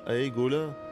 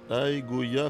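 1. Le nom a un son l avant la fin. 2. Le nom a un son y avant la fin. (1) "pas Aegola. Pas de L" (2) "Mon pseudo, c'est Aegoya"

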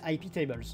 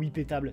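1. Le mot se prononce à l'anglaise. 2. Le mot se prononce à la française.

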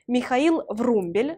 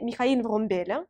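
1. Le nom se prononce à la russe. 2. Le nom se prononce à la française. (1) "je prononce à la russe" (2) "à la française"

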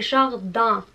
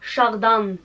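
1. La terminaison est une voyelle nasale sans n. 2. La terminaison a une consonne n bien prononcée. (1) "Il est jardin. I-N equals A" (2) "Pas jardin"

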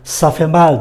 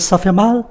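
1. Giọng đi xuống ở cuối. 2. Giọng đi lên ở cuối. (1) "nếu mình nói bình thường" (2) "lên giọng"

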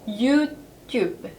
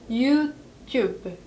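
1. 프랑스식 발음으로 말합니다. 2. 프랑스식 발음으로 말합니다.

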